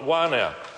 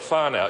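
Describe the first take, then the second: First: The word begins with a W sound. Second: The word begins with an F sound. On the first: This is the local Whanganui way of saying it. "don't pronounce it as an F" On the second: This is how most Māori speakers say it. "most Māori I hear call it whānau"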